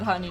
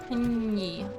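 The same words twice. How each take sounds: First: The word is said in a plain speaking voice. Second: The word is said in a playful, exaggerated voice. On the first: "I can talk about honey normally" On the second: "it's way funnier to say honey"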